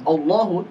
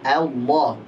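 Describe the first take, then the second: First: The opening vowel sounds thick, like an o. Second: The opening vowel sounds thin, like an a. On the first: The speaker calls it wrong. "Bukan Allahu" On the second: The speaker calls it right. "tapi Allah"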